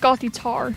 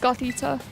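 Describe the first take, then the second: First: The name ends with an R sound. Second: The name ends with a plain vowel. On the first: The speaker calls it wrong. "I don't think it's Gothitar" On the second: The speaker calls it right. "I think it's just Gothita. There's no R at the end of it"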